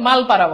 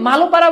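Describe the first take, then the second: First: It is said with no vowel after 'mal'. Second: It is said with an 'o' vowel after 'mal'. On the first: "আবার অনেকে মালপাড়া বলে" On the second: "অনেকে মালোপাড়া বলে"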